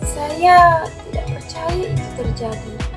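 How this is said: It is said in a sad, sorrowful tone.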